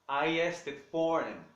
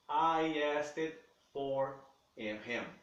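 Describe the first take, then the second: First: The sentence is spoken fast and connected. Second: The sentence is spoken slowly and deliberately. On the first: "quanto mais rápido eles falam" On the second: "da maneira mais lenta, mais vagarosa"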